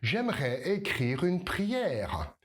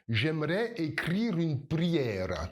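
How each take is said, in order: First: It has a native French accent with French Rs. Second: It has an Eastern European accent with rolled Rs. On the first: "tu vas prononcer tous les R correctement" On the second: "si tu viens d'un pays de l'Est... Tu vas rouler les R"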